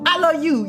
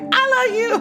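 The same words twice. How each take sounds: First: It is said in a serious, focused tone. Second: It is said in a light, playful tone.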